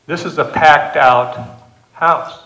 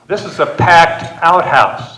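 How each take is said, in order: First: The main stress falls on 'house'. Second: The main stress falls on 'out'. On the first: The room is full of people. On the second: The place is a crowded outdoor toilet.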